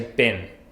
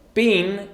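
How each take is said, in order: First: The vowel is a short i sound. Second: The vowel is a long ee sound. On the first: "but in this case, you say been" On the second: "It's the long E sound"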